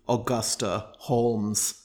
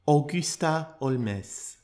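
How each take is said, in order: First: The surname is said the English way. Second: The surname is said the French way. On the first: "an alternative pronunciation of this person's name" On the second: "being French, she goes by"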